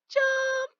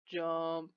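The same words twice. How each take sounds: First: The word is said in a high-pitched voice. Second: The word is said in a low-pitched voice. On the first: "do it with the high voice" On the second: "Let's do it with the low voice"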